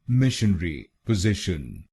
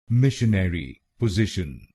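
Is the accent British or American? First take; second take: British; American. First: It is said in a British accent. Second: It is said in an American accent.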